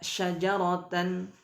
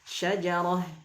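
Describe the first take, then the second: First: The word ends with a full tan syllable. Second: The word ends with a silent h sound. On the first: The speaker calls it wrong. "Tidak boleh dibaca syajaratan" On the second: The speaker calls it right. "tapi dimatikan syajarah"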